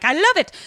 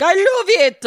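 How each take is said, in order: First: High, louder gush; delighted client. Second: Hammed-up high French accent. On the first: Acted. Acted delighted client, before accent added. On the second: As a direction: exclaim it loudly in a mock French accent. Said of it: "has a goddamn French accent".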